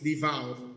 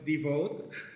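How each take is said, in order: First: The word is said with its standard vowel sounds. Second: The word is said so it resembles 'default'. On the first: The speaker calls it right. "the correct pronunciation for devout is devout" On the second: The speaker calls it wrong. "I thought it was devote, and then it's kind of sound like default"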